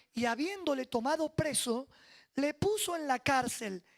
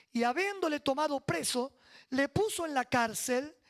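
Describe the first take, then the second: Both takes have the same delivery.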